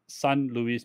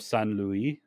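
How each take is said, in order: First: The name is pronounced with Spanish sounds. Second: The name is pronounced with French sounds. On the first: The speaker calls it right. "but it's San Luis Potosi" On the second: The speaker calls it wrong. "I tried to pronounce it like the French way"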